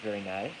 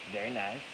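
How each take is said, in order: Both takes have the same delivery.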